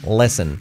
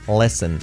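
Both takes have the same delivery.

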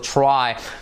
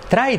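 First: The r sounds like a soft English r. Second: The r sounds like a Spanish tapped r. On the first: The speaker calls it right. "Recuerda que la R es try" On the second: The speaker calls it wrong. "¿Cuál es el defecto típico que solemos hacer? Decir try"

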